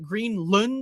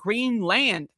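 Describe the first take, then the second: First: The last syllable is reduced and quick. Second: The last syllable is said fully as land. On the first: "some people would pronounce it" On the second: "I don't uh, believe in contractions"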